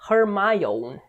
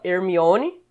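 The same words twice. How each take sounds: First: The name is said with English pronunciation. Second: The name is said with Portuguese pronunciation. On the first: "mas em inglês se pronuncia Hermione" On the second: "a gente fala Hermione"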